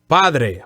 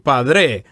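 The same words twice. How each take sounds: First: The stress is on the first syllable. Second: The stress is on the last syllable. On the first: The speaker calls it right. "Padre, first syllables" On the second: The speaker calls it wrong. "Don't say padre"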